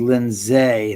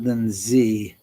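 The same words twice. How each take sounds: First: "Lindsay" said slowly as Lin-ZAY; ending "zay". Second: "Lindsay" said slowly as LIN-zee; ending "zee". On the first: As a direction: stretch "Lindsay" to end in "zay". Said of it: "Oh, I said Lindsay, not Lindsay". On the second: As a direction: end "Lindsay" in a clear "zee". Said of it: "I said Lindsay, not Lindsay". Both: Shown as a demonstration.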